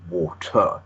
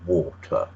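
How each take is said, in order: First: The stress is on the second syllable. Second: The stress is on the first syllable.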